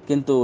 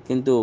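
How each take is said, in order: The two takes are said the same way.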